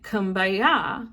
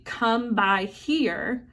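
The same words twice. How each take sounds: First: "Kumbaya" run together in a Gullah accent; Gullah Creole accent. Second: Said in the usual way. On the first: Shown as a demonstration. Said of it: "in the Gullah's Creole accent sounds like". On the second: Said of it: "The chorus was actually".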